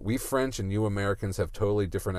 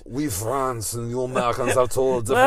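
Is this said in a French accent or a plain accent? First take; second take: plain; French. First: It is said in the speaker's ordinary accent. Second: It is said in a put-on French accent. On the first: The speaker calls it wrong. "I was going to do a French accent, but" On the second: The speaker calls it right. "there you go"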